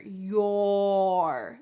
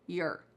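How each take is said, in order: First: The vowel is full, with clearly rounded lips. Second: The vowel is reduced, rhyming with 'her'. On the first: "Notice how my lips are very pronounced here" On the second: "we often reduce it even more... It sounds like her"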